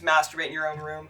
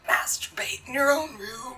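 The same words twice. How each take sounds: First: It is read in a normal voice. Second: It is read in a creepy voice.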